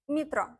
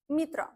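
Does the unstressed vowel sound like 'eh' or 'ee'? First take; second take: ee; ee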